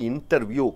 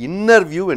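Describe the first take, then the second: First: A t sound is heard after the n. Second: No t sound is heard after the n.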